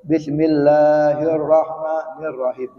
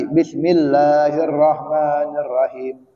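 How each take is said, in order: First: "Bismillahirrahmanirrahim" recited slowly, the r of "rahim" single; don't double the r in the closing "rahim"; no tasdid. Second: Slow recitation of "bismillahirrahmanirrahim"; example recitation. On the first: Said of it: "nggak ditasdid bacanya". ("rahim" dibaca tanpa tasdid, pelan) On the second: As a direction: draw out the long vowels of "bismillahirrahmanirrahim". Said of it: "Contohnya tadi". ("bismillahirrahmanirrahim" dilantunkan pelan) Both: Shown as a demonstration.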